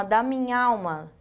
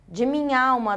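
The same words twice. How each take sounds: First: Da minha alma run together as da mi-nhal-ma; elided form. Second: De minha alma with both a vowels of minha alma sounded; full form. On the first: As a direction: merge minha into alma with one a. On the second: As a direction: say minha and alma as separate words. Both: Shown as a demonstration. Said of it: "essa supressão dessa vogal aqui".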